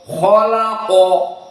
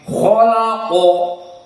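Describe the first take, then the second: First: The kh sound is heavy and full. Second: The kh sound is heavy and full.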